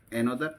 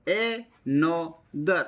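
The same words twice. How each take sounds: First: Said in the usual way. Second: Another very slowly as a, no, ther; teacher breaking another apart for pupils; syllable by syllable. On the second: Shown as a demonstration. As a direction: gaps between the three drawn-out beats of another. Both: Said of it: "आपको बोलना है ऐसे ही मेरी तरह".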